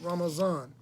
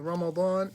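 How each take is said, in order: First: The middle consonant is a z sound. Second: The middle consonant is a d-like sound. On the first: The speaker calls it wrong. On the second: The speaker calls it right.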